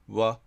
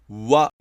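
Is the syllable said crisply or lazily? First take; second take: lazily; crisply. First: The syllable is said lazily with barely rounded lips. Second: The syllable is said crisply with clear lip rounding. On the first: "やる気なくわ、わっていう程度" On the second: "はっきり発音する"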